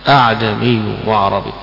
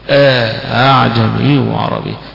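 First: Only one hamza is pronounced at the start. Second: The second hamza is softened after an inserted alif. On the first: "بهمزة واحدة" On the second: "يسهل مع إدخال الألف"

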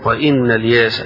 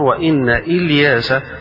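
First: The name links on with no glottal stop. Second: The name starts with a separate glottal stop. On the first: This is a minority variant reading. "قراءة ابن عامر" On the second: This is the majority reading. "قراءة الجمهور"

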